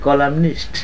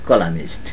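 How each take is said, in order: First: The n sound before the ending is pronounced. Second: The n sound before the ending is dropped. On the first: The speaker calls it right. "শব্দটি হচ্ছে কলামনিস্ট" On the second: The speaker calls it wrong. "এখানে যারা ইংরেজি বলে আমাদের দেশে বলে কলামিস্ট"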